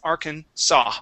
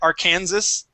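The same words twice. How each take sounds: First: The final s is silent. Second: The final s is pronounced. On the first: The speaker calls it right. "It is Arkansas" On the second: The speaker calls it wrong. "the first time I read it ... I said Arkansas"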